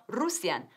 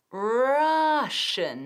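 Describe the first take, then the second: First: "Russian" said roos-yan, Spanish style; wrong Russian. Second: "Russian" said rash-an with an sh sound. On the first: Teacher shows the wrong form, roos-yan. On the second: Teacher models the right form, rash-an. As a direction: say "Russian" like rush plus an. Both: Shown as a demonstration. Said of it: "no Russian".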